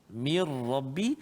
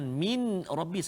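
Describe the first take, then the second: First: The n merges fully into the r sound. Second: The n is pronounced clearly before the r. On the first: The speaker calls it right. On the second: The speaker calls it wrong.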